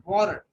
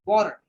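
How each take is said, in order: Both takes have the same delivery.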